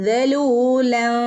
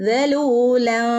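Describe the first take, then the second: No difference in how they are said.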